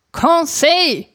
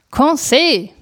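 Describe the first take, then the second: First: High impatient call across the rooms; urgent raised call for the servant; calling out again, more urgently. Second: Calling his name across the house; raised call for the servant. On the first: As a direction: call him a third time, pitched well up. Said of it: "rief ich zum dritten Mal". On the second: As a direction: call Conseil, pitched up. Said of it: "rief ich abermals". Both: A narrator's reading.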